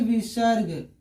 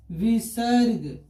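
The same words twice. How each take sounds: First: Said in the usual way. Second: विसर्ग drawn out very slowly, syllable by syllable; slow dictation. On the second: Shown as a demonstration. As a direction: stretch each part of विसर्ग for the class. Teacher repeats the term slowly for students.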